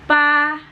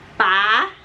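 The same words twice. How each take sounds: First: The pitch stays high and level. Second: The pitch rises from low to high. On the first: "itu adalah nada pertama kita" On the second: "nada kedua kita itu adalah nada naik"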